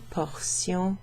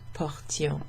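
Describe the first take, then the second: First: The middle is said with an S sound. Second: The middle is said with a T sound. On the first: It is a noun meaning parts of something. "it's pronounced sion" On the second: It is a verb meaning we carried. "that's pronounced differently"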